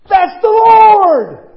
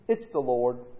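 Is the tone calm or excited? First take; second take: excited; calm. First: It is said with excitement. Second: It is said calmly and plainly.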